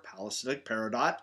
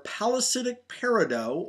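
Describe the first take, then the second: First: Peridot ending in "dot"; sounded final T. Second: Peridot ending in a long "doh"; French-style silent T. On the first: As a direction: say peridot with the last T pronounced. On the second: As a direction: say peridot with no T sound at the end. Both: Shown as a demonstration. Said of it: "depending on how you pronounce it".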